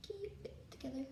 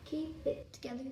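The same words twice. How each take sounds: First: Much softer murmured repeat; quiet. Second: Said in the usual way. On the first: Real, not acted. Presenter calming herself before filming, quiet murmur. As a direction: say it under your breath to yourself.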